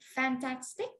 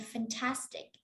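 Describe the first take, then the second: First: The stress is not on the second syllable. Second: The stress is on the second syllable. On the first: The speaker calls it wrong. "We don't say fantastic" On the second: The speaker calls it right. "the stress syllable is on tas"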